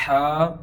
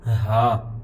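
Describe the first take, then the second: First: ہا as Arabic haa with strong throat friction; louder pharyngeal ہا; throaty ha. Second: ہا with an open, light h from the chest; soft-h ha. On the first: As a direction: push ہا through a tightened throat, held. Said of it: "ہا کے ساتھ". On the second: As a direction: let ہا out without throat friction. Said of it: "ملتی جلتی ہے". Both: Shown as a demonstration.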